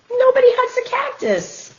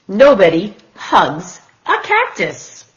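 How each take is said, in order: First: Sing-song title. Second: Said in the usual way. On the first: Shown as a demonstration. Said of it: "title read again". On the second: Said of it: "title read twice".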